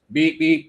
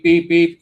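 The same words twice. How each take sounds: First: High, louder mock beeps; imitated beeping. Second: Higher and much louder mock beeps; louder imitated beeping. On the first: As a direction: copy the alarm, pitched up and louder. Mimicking alarm as cupboard opens. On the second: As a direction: let the copied alarm blare louder. Mimicking alarm, growing louder.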